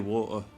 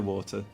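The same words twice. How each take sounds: First: The T sound in the middle is dropped. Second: The T sound in the middle is pronounced. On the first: This is how the speaker naturally says it. "like with no T, and water. So I, I genuinely say water" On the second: This is not how the speaker naturally says it. "I don't say water"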